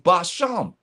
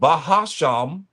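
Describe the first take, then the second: First: The word has no ha syllable inside. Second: The word has an extra ha syllable inside. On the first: The speaker calls it right. "It's Basham" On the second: The speaker calls it wrong. "you ain't supposed to be saying ha"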